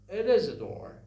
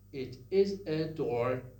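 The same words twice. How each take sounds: First: The words link smoothly without glottal catches. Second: Each vowel starts with a glottal catch. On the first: This is how English speakers say it. "In English, they say" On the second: This is how a Farsi speaker says it. "Farsi speakers sometimes have something like this"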